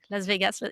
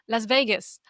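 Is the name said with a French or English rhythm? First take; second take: French; English. First: It is said with an even, French-style rhythm. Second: It is said with an English-style stressed rhythm. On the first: The listener does not understand it. The speaker calls it wrong. "il répond Las Vegas" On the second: The listener understands it at once. The speaker calls it right. "Là, j'interviens"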